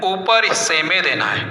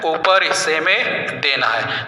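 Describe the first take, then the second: First: Said in the usual way. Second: "ऊपर हिस्से में देना है" said again slowly, stressing ऊपर; slow down and lean on "ऊपर" for the pupils; slow teacher repeat. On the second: Shown as a demonstration. ("ऊपर" पर ज़ोर देकर धीरे से दोहराना) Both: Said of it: "कहाँ देना है".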